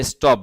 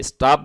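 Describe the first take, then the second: First: British pronunciation. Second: American pronunciation. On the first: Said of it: "ব্রিটিশরা স্টপ বলে". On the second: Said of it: "আমেরিকানরা স্টপ বলে". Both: Shown as a demonstration.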